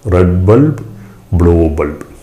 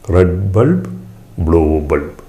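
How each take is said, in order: No difference in how they are said.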